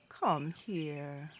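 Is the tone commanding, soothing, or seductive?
soothing. The tone is gentle and soothing. A parent is comforting a hurt child. "A woman may say to her child who's hurt herself"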